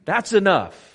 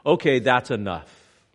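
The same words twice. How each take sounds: First: "That's enough" higher and louder, nearly shouted; forceful that's enough. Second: Said in the usual way. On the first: Retold or imitated. Imagined onlooker stopping the beating, forceful. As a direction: cut it off hard, "That's enough". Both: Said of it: "look at his suffering and say".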